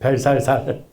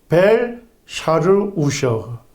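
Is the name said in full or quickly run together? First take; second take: run together; in full. First: The name is said quickly, syllables run together. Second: The name is said in full, every syllable separate.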